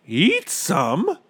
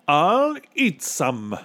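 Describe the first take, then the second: First: High, aghast question; high voice rising at the end; gasping disbelief. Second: Slow, high, drawn-out announcement; pompous statement falling at the end; boastful captain. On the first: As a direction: echo it in shock. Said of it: "gasped Bartholomew". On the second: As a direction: declare it with bravado. Captain boasts he will eat. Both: A narrator's reading.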